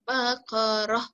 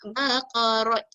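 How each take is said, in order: First: The word ends with an h sound. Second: The word ends with a t sound. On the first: The speaker calls it right. "apabila kita berhenti dia menjadi ha" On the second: The speaker calls it wrong. "Dia tak boleh jadi baqarat"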